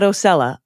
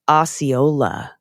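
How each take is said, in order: First: The name is said as Ocella. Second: The name is said as Osceola. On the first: The speaker calls it wrong. "not Ocella" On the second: The speaker calls it right. "It's pronounced Osceola"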